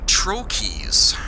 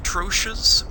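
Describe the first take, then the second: First: It is said the usual American way. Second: It is said the usual British way. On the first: The speaker calls it right. "the proper American English pronunciation, is actually trochees" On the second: The speaker calls it wrong. "In British English, it's usually pronounced Troches, but that's actually not entirely accurate"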